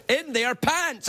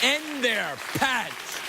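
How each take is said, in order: First: Very slow, drawn-out punchline; hard-sold punchline. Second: Very slow, dragged-out punchline; milk every word of it. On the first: Host to audience, showing how hard he sold the punchline. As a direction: sell the words hard, slowly. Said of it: "I did the double hand out sell". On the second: Host to audience, replaying the punchline very slowly. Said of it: "I said". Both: Retold or imitated.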